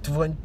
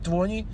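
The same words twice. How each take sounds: First: The t after the n is dropped, like twenny. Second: The t after the n is dropped, like twenny.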